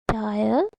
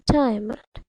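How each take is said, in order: First: DIAMOND split into two beats, dia - mond; syllable by syllable. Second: Said in the usual way. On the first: Shown as a demonstration. Teacher finding out the syllables for kids, syllable by syllable. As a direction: break DIAMOND after "dia" with a long gap. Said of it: "Let's find out". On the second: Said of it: "How many syllables does this diamond word".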